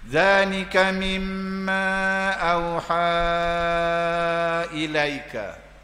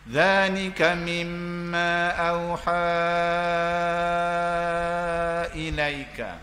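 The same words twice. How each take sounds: First: The long vowel is held for four counts. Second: The long vowel is held for six counts. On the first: "Saya baca empat" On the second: "Saya baca enam"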